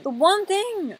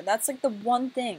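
First: High, loud dramatic lament; exasperated wail. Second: Said in the usual way. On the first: Pretend. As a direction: wail it in mock despair. Repeats complaint as a wail.

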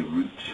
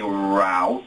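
First: "route" said like "root"; soft, low "route" with an oo vowel; British pronunciation. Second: "route" drawn out, rhyming with "out"; American pronunciation. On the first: Brit showing how we say "route", softly as root. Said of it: "and we say route". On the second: Brit showing how you say "route", as a drawn-out rowt. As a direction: say "route" as rowt, slowly stretched. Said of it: "You say route". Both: Shown as a demonstration.

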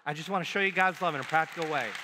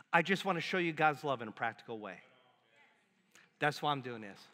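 First: "I just wanna show you God's love in a practical way" pushed out louder and fast, stress on "God's"; emphatic, louder and fast. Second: Said in the usual way. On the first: Shown as a demonstration. Pastor drilling the church on the phrase, louder and fast. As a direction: drive it home with "God's" hit hard. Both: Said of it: "Here's what you're gonna say".

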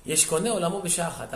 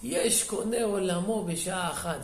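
First: Said in the usual way. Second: Slow, drawn-out mock lament; tearful retelling. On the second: Weeping rabbi marvels at the executioner, slow mild lament. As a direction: stretch it out like a mild retold weeping. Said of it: "ובוכה".

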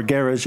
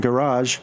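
First: "Garage" said the British way, stressed on the first syllable; British pronunciation. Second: Said in the usual way. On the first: Shown as a demonstration. Quoting British partners on their name, British pronunciation of "Garage". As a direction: say "Garage" to rhyme roughly with "carriage". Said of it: "they're British guys". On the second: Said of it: "or Garage as they say".

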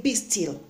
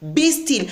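First: Calm command. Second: Be still said firmly and a bit higher; firm command. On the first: Jesus speaking to the waves, softly and calmly. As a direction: quietly still the storm. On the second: God lifting his hand over the waves, a firm command. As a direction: command the sea with authority. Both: Retold or imitated.

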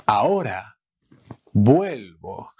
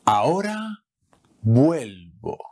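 First: Breathy whispered repeat. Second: Said in the usual way. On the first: Shown as a demonstration. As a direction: whisper it, then say vuelvo. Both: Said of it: "I'm coming back right away".

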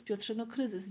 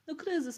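First: Said in the usual way. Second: Kryzys said higher and louder, punched; first kryzys pitched up and pushed; emphatic crisis. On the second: Acted. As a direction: stress hard on kryzys, much higher.

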